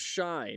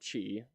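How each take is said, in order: First: The word begins with a soft 'sh' sound. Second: The word begins with a hard 'ch' sound. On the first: The speaker calls it right. "it's pronounced Shy" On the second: The speaker calls it wrong. "not Chi"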